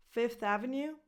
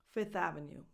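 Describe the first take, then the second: First: "Fifth" with f and th both sounded before Avenue; rising "Fifth Avenue" with full f-th; F kept. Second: "Fifth" said as "Fith" before Avenue; falling "Fifth Avenue" without the second f; F dropped. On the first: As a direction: say "Fifth" as fif-th, tune lifting. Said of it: "both pronunciations are correct". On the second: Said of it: "drop the F before the T H". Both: Shown as a demonstration.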